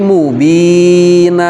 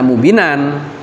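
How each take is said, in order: First: The word ends with an open vowel. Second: The word ends with an n sound. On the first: The speaker calls it right. "tapi mubina" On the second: The speaker calls it wrong. "Jangan dibaca mubinan"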